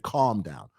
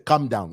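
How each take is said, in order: First: The first vowel is long, like in 'calm'. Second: The first vowel is short, like in 'come'. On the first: This is how Zambians do not say it. "We don't say calm down" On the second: This is how Zambians say it. "In Zambia, we say come down"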